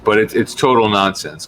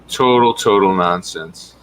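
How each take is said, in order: First: Said in the usual way. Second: Total, total nonsense said slowly with weight on total; emphatic repeat. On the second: Real, not acted. Telling viewers it's nonsense, slow and emphatic. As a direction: lean hard on each total.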